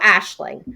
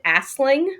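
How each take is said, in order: First: The middle consonant is an sh sound. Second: The middle consonant is an s sound. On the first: The speaker calls it right. "But I knew Ashling" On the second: The speaker calls it wrong. "I pronounced it Asling"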